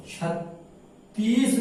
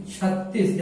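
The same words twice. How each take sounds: First: छत्तीस slowly, with a long drawn-out "ee"; छत्तीस stretched as "chhat-teees"; wrong pronunciation demo. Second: छत्तीस with a short vowel in the last syllable; correct pronunciation demo. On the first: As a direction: split छत्तीस and drag the second syllable. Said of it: "नहीं पढ़ा जाता है". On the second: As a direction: keep छत्तीस compact, no long "ee". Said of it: "छोटी की मात्रा लगना चाहिए". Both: Shown as a demonstration.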